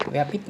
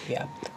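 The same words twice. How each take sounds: First: व्यापित with an i between p and t; wrong extra vowel. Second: व्याप्त with p and t joined; corrected cluster. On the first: Teacher showing the mistake, व्यापित in two syllables. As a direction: say vyaa-pit for व्यापित. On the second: Teacher giving the correct word, व्याप्त without the i. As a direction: close vyaapt on pt, no i in व्याप्त. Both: Shown as a demonstration. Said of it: "व्यापित नहीं".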